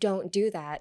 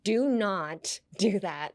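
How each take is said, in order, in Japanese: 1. 「Do not」は一つの弱い音節に短縮される。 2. 各単語が強く強調されて別々に発音される。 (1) "instead of saying don't do that" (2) "Like they emphasize every single word"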